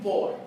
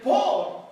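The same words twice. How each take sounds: First: Said in the usual way. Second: Por said much higher and louder; stress on por. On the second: Shown as a demonstration. Pastor pointing the church to one word, "por" punched. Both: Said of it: "fíjense bien".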